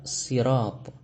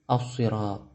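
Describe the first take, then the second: First: It begins with a plain, light s sound. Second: It begins with a heavy, emphatic s sound. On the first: "menggunakan huruf sin" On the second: "mengapa ia dibaca dengan shad"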